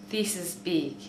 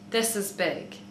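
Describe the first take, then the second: First: The I vowel is raised, like 'ee'. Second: The I vowel is centralized, like 'uh'. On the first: "Australian is kind of like, e" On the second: "The New Zealand accent, the I sound is kind of like, ugh"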